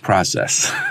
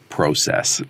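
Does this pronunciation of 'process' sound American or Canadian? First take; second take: American; Canadian. First: It is said the American way. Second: It is said the Canadian way. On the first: "all the Americans would say, or people in the U.S. would say, it's process" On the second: "all the Canadians would say process"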